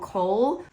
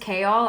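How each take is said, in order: First: The name is said to sound like 'Cole'. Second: The name is said differently from 'Cole'. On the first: This is how many readers say it. "I know a lot of people call him Cole" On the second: This is the author's own pronunciation. "So his name is Chaol"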